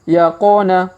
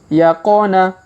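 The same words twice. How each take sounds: The two takes are said the same way.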